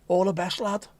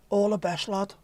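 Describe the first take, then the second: First: A touch of Scouse; Scouse accent. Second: Higher, broader Scouse; stronger Scouse accent. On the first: Signing off to a viewer in mock Scouse. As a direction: say it like a Liverpool lad. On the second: Repeating the viewer's sign-off in bolder Scouse. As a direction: lean into the Liverpool twang. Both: Pretend. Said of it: "Not very Scouse, that, is it?".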